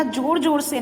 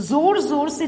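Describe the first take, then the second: First: जोर जोर से said as jor jor se, with a plain j; wrong j sound. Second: जोर जोर से said as zor zor se, with a clear z; correct z sound. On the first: Teacher showing pupils the wrong way, jor jor se with j. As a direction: say जोर as jor, the mistake to avoid. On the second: Teacher showing pupils the right way, zor zor se with z. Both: Shown as a demonstration. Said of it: "जेड का उच्चारण होगा".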